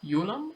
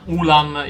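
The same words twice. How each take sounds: First: The name is pronounced a non-Italian way. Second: The name is pronounced the Italian way. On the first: "but I think it's uh" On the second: "the Italian pronunciation"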